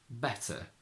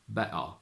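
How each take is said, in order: First: It is said in an RP accent. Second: It is said in a Cockney accent. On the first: "going from R P" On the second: "to Cockney"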